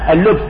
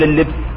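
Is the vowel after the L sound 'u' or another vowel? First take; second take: u; other. First: The vowel after the L is 'u'. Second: The vowel after the L is not 'u'. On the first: The speaker calls it right. "بضم اللام" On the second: The speaker calls it wrong. "لا يصح أن تقول اللبس"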